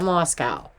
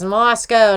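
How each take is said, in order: First: The last syllable is said as 'cow'. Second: The last syllable is said as 'co'. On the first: The speaker calls it wrong. "not Moscow" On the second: The speaker calls it right. "It's actually O, Moscow"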